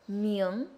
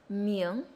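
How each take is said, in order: Both takes have the same delivery.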